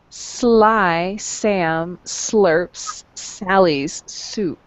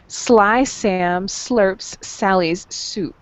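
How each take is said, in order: First: It is said at a normal, unhurried pace. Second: It is said at a quicker pace.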